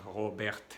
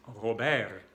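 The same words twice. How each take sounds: First: "Robert" in French with the last T released; French throat R, then a clear T in "Robert"; final T sounded. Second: "Robert" in French ending on the r, no t; French "Robert" with the T dropped; silent final T. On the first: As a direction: end "Robert" on an audible t. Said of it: "podríamos pronunciar la T". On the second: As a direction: say "Robert" as ro-BER. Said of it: "La T no se pronuncia". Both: Shown as a demonstration.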